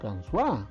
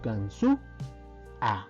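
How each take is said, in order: First: The final vowels merge into one syllable. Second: The final vowels are split into two syllables. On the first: The speaker calls it wrong. "no decimos Gansua" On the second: The speaker calls it right. "decimos Gansu A"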